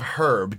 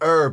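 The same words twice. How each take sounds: First: The word starts with an h sound. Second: The word starts without an h sound. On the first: "instead of herb" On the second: "Why do you pronounce it herb"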